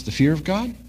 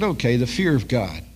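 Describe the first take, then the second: First: Puzzled, rising at God; surprised question. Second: Said in the usual way. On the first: Retold or imitated. Salesman caught off guard by the pastor, puzzled. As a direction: echo it back with a lift on God. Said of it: "He says". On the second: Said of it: "And I said".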